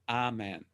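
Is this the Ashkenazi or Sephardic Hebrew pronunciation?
Sephardic. It uses the Sephardic Hebrew pronunciation.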